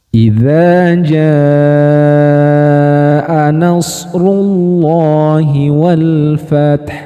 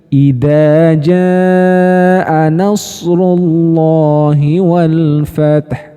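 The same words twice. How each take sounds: First: The first word has a soft flowing z sound. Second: The first word has a hard bouncing d sound. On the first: The speaker calls it right. "Itu cara yang benar membaca kata idza" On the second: The speaker calls it wrong. "yang keliru seperti apa tadi? ... itu keliru"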